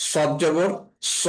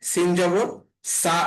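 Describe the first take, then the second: First: সদ and স said thick, with a rounded "saw" vowel; thick, dark স after সদ জবর; heavy s. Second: সিন and সা said light, with an open "saa" vowel; light, unrounded সা after সিন জবর; thin s. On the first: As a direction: make স heavy and full-mouthed. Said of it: "সদ এর উচ্চারণটা একটু মোটা". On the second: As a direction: keep the s of সা thin. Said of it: "সিন এর উচ্চারণটা পাতলা হবে". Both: Shown as a demonstration.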